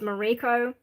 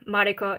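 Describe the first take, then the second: First: The name is said the way a Greek name sounds. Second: The name is said the way a Japanese name sounds. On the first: "because it sounds like a Greek name" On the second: "sort of like the Japanese, but it sounds like oddly formal"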